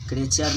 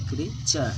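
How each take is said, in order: First: "क्रेचर" as kre-char, louder; wrong pronunciation. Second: "क्रीचर" as kree-cha, long ee; correct pronunciation. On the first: Teacher showing students the mistake, "क्रेचर" loudly as kre-char. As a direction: punch "क्रेचर" with an e vowel. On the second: Teacher correcting students, "क्रीचर" firmly as kree-cha. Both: Shown as a demonstration. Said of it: "क्रेचर नहीं बोले".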